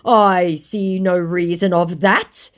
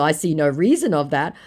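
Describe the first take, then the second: First: Very slow, loud, rising reply; stilted scammer. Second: Said in the usual way. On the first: Acted. Scammer told he's not smart enough, mock stilted indignation. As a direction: drag out each word in a mock voice.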